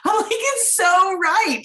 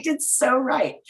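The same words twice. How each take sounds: First: "It's so right" slow, much higher and louder, every word stretched; "It's so right" sung out high and slow; emphatic agreement. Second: Calm second "It's so right", nearer the usual voice. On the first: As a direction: drag out "It's so right" in delighted disbelief. Agreeing with guest's phrase, laughing. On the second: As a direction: let "It's so right" land gently, nodding along. Repeating the phrase more calmly. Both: Retold or imitated.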